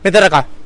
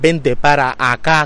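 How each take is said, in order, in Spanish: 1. Las palabras van deprisa y se juntan. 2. Cada palabra se pronuncia clara y completamente. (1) "lo diría así" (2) "que es como está bien dicho"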